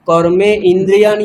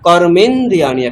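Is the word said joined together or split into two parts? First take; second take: split; joined. First: It is split into two separate words. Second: It is said as one joined word. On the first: The speaker calls it wrong. "এরকম নেই" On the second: The speaker calls it right. "একসঙ্গে"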